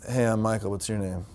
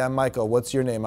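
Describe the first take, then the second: First: It is said in a sultry, seductive tone. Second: It is said flatly with little intonation. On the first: "It was too sexy" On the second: "Have a little bit of lightness and intonation"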